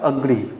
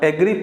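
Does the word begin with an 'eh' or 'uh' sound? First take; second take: uh; eh. First: The word begins with an 'uh' vowel. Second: The word begins with an 'eh' vowel. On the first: The speaker calls it right. "ओ से start होता है" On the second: The speaker calls it wrong. "अगर इसे आप एग्री पढ़ रहे हैं तो ये गलत है"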